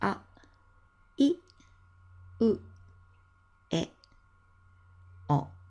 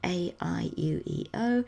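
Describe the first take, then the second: First: The vowels are short, pure Japanese vowels. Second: The vowels sound like English letter names. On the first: The speaker calls it right. "They're pronounced" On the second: The speaker calls it wrong. "It's not"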